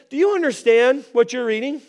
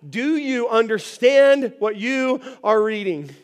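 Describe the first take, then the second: First: Quick, casual question; simple question. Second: Slow, deliberate question; carefully spaced, drawn-out question; measured scripture question. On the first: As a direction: toss it out simply. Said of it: "I mean, it's simple". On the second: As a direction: read it out word by word. Reading the question aloud from scripture. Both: Retold or imitated.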